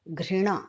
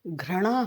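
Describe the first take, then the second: First: The r is followed by an i vowel. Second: The r is followed by an a vowel. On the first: The speaker calls it right. "घृणा री आता है" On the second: The speaker calls it wrong. "घृणा में र पदेन नहीं आता है"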